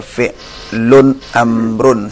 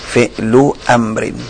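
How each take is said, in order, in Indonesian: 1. Kedua kata berakhiran -un. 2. Kata-kata itu berakhiran -u dan -in. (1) "dibaca fi'lun amrun, salah" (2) "Fi'lu amrin itu idhafah"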